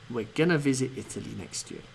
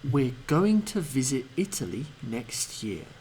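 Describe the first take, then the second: First: 'Going to' is reduced and run together as 'gonna'. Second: 'Going to' is said fully, every sound clear. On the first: "and as a weak form" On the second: "I'll pronounce it as a strong form"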